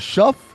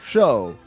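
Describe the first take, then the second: First: The name ends with an f sound. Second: The name ends with a long vowel. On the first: "is it Shuff" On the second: "or Show?"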